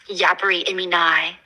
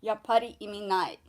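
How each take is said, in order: First: "Yapari imi nai" with flat Western vowels, single p, rising question; Western-accented Japanese. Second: "Yappari imi nai" with a held double p, falling; native Japanese. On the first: Pretend. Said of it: "Your pronunciation is, it really does need work". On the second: Shown as a demonstration. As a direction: say "Yappari imi nai" with a clear pause on the pp, ending down. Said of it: "Your pronunciation is".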